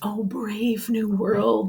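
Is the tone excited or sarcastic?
excited. It sounds eager and full of wonder. The speaker is delighted by what he sees. "John's tone is going to change from excitement"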